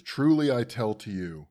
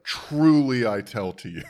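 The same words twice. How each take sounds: First: Mildly catty. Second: Loud, drawn-out catty TRULY; hammed-up catty pronouncement, slow and forceful. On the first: Retold or imitated. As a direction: quote reading with a touch of cattiness. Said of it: "by the way, little catty". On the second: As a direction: stretch the first word with mock exasperation. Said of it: "I do appreciate Jesus's catty".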